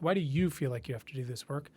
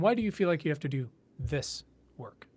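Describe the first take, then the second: First: The stress is on the word you. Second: The stress is on the word do.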